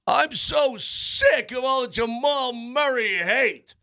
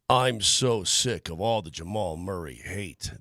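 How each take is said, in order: First: It is read loudly and angrily, like all caps. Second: It is read in a plain, calm way.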